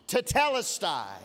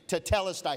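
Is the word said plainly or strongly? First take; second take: strongly; plainly. First: The word is said loudly and forcefully. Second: The word is said at normal strength. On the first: "Say it strong" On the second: "Say it again"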